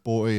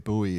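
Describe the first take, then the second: First: Put-on "boy" for buoy, one syllable; "boy" rhyming with "toy"; pronunciation variant. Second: "buoy" said as "BOO-ee"; "buoy" with an OO then EE; American pronunciation. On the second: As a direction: say buoy in two syllables, "boo-ee". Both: Shown as a demonstration. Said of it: "American English language that give me".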